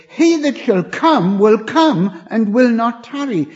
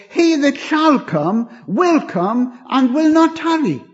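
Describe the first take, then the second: First: "He" opens strong and loud, the rest carried on it; stress on He. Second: "not" hit hardest, a quote of certainty; stress on not. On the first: Shown as a demonstration. Preacher shows his preferred reading, stress on "He". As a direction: start on a loud "He" so the promise rings. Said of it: "I think the inflection is better slightly differently". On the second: Retold or imitated. Quoting brethren on Hebrews, stress on "not". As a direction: lean on "not" in "will not tarry". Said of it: "where we put the emphasis, the inflection of the voice determines its meaning".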